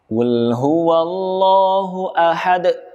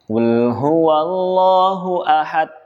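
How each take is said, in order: First: The final d ends with a hard push. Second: The final d has no bounce at all. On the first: "Contoh yang kurang tepat" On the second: "Tidak ada pantulan, tidak ada qalqalah"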